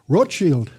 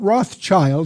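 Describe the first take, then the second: First: It is pronounced the German way. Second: It is pronounced the common American way. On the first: The speaker calls it right. "That's the German word for red shield" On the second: The speaker calls it wrong. "not Rothschild. That's mispronounced by most Americans"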